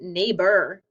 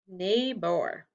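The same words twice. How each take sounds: First: The last syllable is said as a weak 'er'. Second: The last syllable is said with a full 'or'. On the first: "Sometimes it sounds like er" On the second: "It's an R controlled and it says or"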